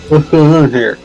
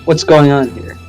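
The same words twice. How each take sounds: First: It is said in the sprite's character voice. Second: It is said in a normal reading voice.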